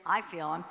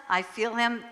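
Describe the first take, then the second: First: I feel him, with the weight on "I"; "I" stressed, "feel him" softer. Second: I feel HIM, with the weight on "him"; "him" stressed, "I" and "feel" light. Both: Shown as a demonstration. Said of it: "or I should say".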